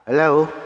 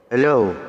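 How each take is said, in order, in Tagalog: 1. Manipis at mataas ang boses. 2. Nasasamid ang boses. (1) "Parang medyo tumining" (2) "Parang ano, nasasamid"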